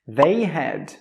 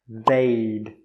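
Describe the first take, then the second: First: The word had is pronounced in full. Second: The word had is shortened to a d. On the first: The speaker calls it wrong. "Most native speakers don't say I had" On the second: The speaker calls it right. "They will say I'd"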